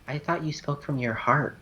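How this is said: It is said in a small, sad voice. "somber and small"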